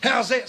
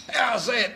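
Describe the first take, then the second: First: A hammed-up fast bowler's yell at the umpire; mock scream. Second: Raised, questioning cricket appeal, higher pitch; asking appeal. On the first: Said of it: "screams Fred". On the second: Retold or imitated. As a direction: ask the umpire hopefully, pitch up. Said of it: "asked Fred".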